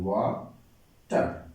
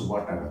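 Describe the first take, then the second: First: water drawn out slowly in two beats, ওয়া then টার; teacher slowly breaking water in two; syllable by syllable. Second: Said in the usual way. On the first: Shown as a demonstration. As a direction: split water into two slow, separate syllables. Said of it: "ওয়াটারকে আমরা দুইবার উচ্চারণ করতে পারি". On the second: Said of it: "দুইবার উচ্চারণ করতে পারি".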